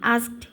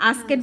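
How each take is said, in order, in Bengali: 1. শেষ অংশটা একটা সাধারণ t ধ্বনি। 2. শেষ অংশটা একটা অতিরিক্ত সিলেবল হিসেবে বলা হয়। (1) "এটা হচ্ছে এ এস কে, আস্ক, তারপর ইডি" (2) "আস্কেট বলছিলা তুমি, ওইভাবে বলবা না"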